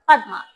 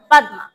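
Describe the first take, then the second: No difference in how they are said.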